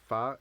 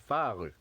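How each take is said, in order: First: "phare" as one syllable ending on the R; correct French pronunciation. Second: "phare" with an extra vowel after the R; "phare" with a added final "uh"; mistaken pronunciation demo. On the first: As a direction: say "phare" closed on its R, no vowel after. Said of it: "Remember, we said phare". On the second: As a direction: wrongly stretch "phare" into two syllables, "fa-ru". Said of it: "You end the pronunciation". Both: Shown as a demonstration.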